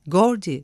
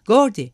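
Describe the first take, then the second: First: Calling a name. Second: Louder call. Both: A narrator's reading. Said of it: "dedi kalabalığın arasındaki çıkık dişli adam".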